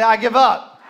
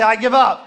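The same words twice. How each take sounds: First: Said in the usual way. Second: Louder, shouted. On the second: Shown as a demonstration. Pastor asks the church to say it louder, shouted. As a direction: push it out loud. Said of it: "Say a little louder".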